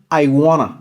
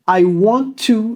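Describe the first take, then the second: First: The phrase is shortened and blended together. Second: Every syllable of the phrase is said fully.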